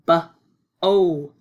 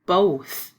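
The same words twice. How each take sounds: First: "B-o-th" segmented sound by sound, loud. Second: Said in the usual way. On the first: Shown as a demonstration. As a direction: stretch out each sound of "both". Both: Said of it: "Be sure the T H sound".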